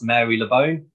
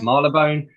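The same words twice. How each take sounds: First: The name is said in full, as spelled. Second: The name is said with its first part reduced. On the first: This is how the spelling suggests it is said. The speaker calls it wrong. "looks like it should be pronounced Marylebone" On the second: This is how the name is actually said. The speaker calls it right. "but it's Marylebone"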